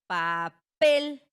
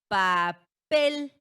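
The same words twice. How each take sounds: No difference in how they are said.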